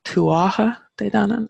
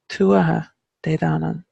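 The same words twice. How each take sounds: First: Tuatha de danann said the wrong way, stress moved to DANann; mock wrong pronunciation. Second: Tuatha de danann with the stress on TUA; Irish pronunciation. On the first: Teacher mimicking how media gets the name wrong. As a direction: imitate the common mispronunciation of tuatha de danann. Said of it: "it just sounds wrong". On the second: Shown as a demonstration. Teacher showing learners the right Irish stress. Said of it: "the emphasis is very much tuatha".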